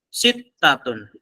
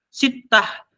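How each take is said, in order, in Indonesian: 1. Kata ini berakhir dengan akhiran penuh '-atun'. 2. Kata ini berakhir dengan '-ah' pendek.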